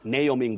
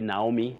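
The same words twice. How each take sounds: First: It is said in the standard pronunciation. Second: It is said in the local pronunciation. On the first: The speaker calls it right. "but it's Naomi" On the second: The speaker calls it wrong. "We always say Naomi locally"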